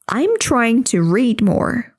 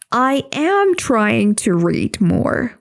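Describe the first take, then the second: First: The words I am are contracted to I'm. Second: The words I am are said in full. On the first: The speaker calls it right. "They say" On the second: The speaker calls it wrong. "They don't say"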